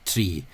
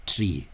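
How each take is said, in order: Both takes have the same delivery.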